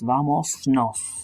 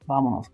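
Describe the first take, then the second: First: The S before 'nos' is kept. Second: The S before 'nos' is dropped. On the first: The speaker calls it wrong. "It just ties up our tongue" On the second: The speaker calls it right. "you get rid of it"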